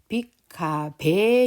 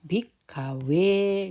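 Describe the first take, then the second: First: The last syllable starts with a b-like sound. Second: The last syllable starts with a w-like sound. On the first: The speaker calls it wrong. "빅카베 이렇게 주로 하시는 분들이 계세요" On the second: The speaker calls it right. "베라고 발음하지 않거든요"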